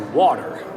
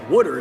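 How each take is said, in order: First: The middle consonant sounds like a clear t. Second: The middle consonant sounds like a soft d. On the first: This is how the speaker says it. The speaker calls it right. "I say water" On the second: This is a way the speaker rejects. The speaker calls it wrong. "wooder is not a thing"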